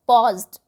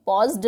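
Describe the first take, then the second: First: Paused ending in a crisp t sound; Paused with a final t, no id. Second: Paused said with an extra id syllable; paused wrongly ending in id. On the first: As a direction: say Paused as pawzt. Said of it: "तो ट की sound आई है last में". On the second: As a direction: mispronounce paused as pawz-id. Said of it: "paused नहीं होता है". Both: Shown as a demonstration.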